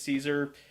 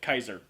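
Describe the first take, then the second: First: It begins with an S sound. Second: It begins with a K sound. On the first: This is the usual modern way. "Even though we say it's Caesar" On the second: This is the likely ancient Roman way. "the Romans would most likely call it Kaiser because the C is pronounced like a hard K"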